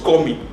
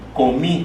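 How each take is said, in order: First: The stress is on the first syllable. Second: The stress is on the last syllable. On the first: The speaker calls it wrong. "no decimos comí" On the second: The speaker calls it right. "el sonido fonético está en la última sílaba"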